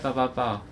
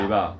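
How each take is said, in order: First: It is said in a sweet, affectionate tone. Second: It is said in a cold, fierce tone.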